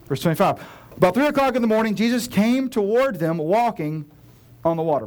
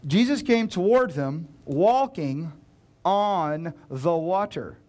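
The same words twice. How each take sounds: First: Loud, quick run through the verse; hurried loud read; rushed reading. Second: Slow, deliberate, every word weighed; slow dawning reread; slowed for effect. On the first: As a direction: read it fast to get past it. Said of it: "Blah, blah, blah". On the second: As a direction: let the words land one by one. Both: Shown as a demonstration.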